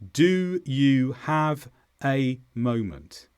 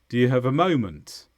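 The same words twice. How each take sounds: First: It is slow, with full vowels in small words. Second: It is quicker, with weak vowels in small words. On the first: The speaker calls it wrong. "Let's say it slowly, first of all. ... That's not how we say it in English" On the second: The speaker calls it right. "All of the grammatical words become weaker in their vowels. So instead, a native speaker would say this"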